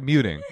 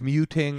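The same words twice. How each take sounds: First: The word is pronounced in an ordinary way. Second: The word is pronounced in an odd, unnatural way. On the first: The speaker calls it right. "the second time you did it regular" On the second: The speaker calls it wrong. "You didn't say it like a human being"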